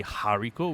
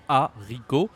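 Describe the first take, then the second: First: "haricot" with English h and r; wrong, h sounded. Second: "haricot" split, opening on "ah"; silent h. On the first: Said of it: "we don't say haricot". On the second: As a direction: say "haricot" as "ah-ree-ko", French r. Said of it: "even though there is a H". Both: Shown as a demonstration.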